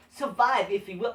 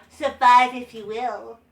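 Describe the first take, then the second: First: Said in the usual way. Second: Slow, dull mock promo read; slow mock of a flat promo; uncharismatic promo. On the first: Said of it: "He said it so uncharismatically". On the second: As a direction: mimic a lifeless wrestling promo. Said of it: "That's how he sounded like".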